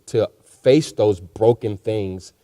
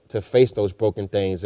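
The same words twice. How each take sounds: First: Slowed right down, each word weighed; slow emphasis. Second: Said in the usual way. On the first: Real, not acted. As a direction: lean on it slowly, like a preacher's point. Repeats phrase for emphasis.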